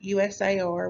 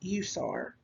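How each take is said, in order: First: Each letter is said separately. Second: It is said as a single word.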